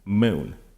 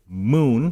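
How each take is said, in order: First: The vowel is made further forward, more central. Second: The vowel is made far back in the mouth. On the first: "we say something like moon, where the vowel is somewhere around here" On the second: "we don't say moon"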